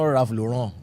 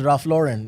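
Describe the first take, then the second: First: The name has a put-on French-style pronunciation. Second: The name has a plain American pronunciation. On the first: The speaker calls it wrong. "It's not Ralph Lauren. Are you French?" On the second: The speaker calls it right. "His name is Ralph Lauren"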